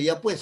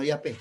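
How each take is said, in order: First: Said in the usual way. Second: "ya pe" with the final sounds swallowed; clipped coastal word. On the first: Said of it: "No dice". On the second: Shown as a demonstration. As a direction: swallow the end of "pues" into "pe". ("ya pe", comiéndose las letras como costeño)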